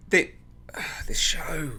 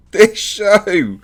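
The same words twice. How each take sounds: First: Sighing, softer and slow; weary sigh. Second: Louder, higher laugh through the words; laughing in disbelief. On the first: Reviewer despairing at the show, tired sigh. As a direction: let the breath out in despair. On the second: Reviewer laughing at the bat scene, real disbelieving laugh. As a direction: crack up at the absurdity. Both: Real, not acted.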